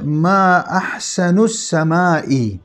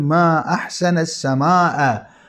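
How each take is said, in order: First: Ahsan ends in u; sama' ends in i. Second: Ahsan ends in a; sama' ends in a. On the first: It asks what the most beautiful thing in the sky is. The speaker calls it wrong. "بضم النون، نعم وكسر الهمزة ... هكذا تحرك" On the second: It exclaims how beautiful the sky is. The speaker calls it right. "المفروض أن تقول ما أحسن السماء"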